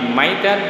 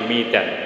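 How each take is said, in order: First: The first syllable has an 'a' vowel. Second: The first syllable has an 'i' vowel. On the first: "Kalau dibaca fathah" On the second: "kalau dibaca kasroh"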